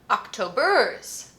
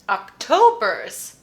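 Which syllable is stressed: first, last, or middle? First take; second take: last; middle. First: The stress is on the last syllable. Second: The stress is on the middle syllable. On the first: The speaker calls it wrong. "Let's check the last one just in case" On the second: The speaker calls it right. "Yes. It's the middle"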